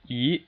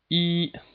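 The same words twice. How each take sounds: First: The pitch rises steadily from middle to high. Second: The pitch stays level and high throughout. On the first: "it's just a steady rise" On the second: "From five to five, that's the first tone"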